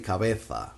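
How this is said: The z is pronounced as a th sound. This is how it is said in Spain. "for Spanish from Spain, the Z sounds like th"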